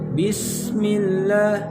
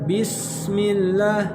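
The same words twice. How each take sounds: The two takes are said the same way.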